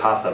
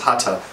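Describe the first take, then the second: First: The middle consonant is an English th sound. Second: The middle consonant is a t sound. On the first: "Most English speakers would say hatha because that's the way th is pronounced" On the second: "So it's hata"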